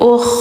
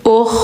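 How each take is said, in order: The two takes are said the same way.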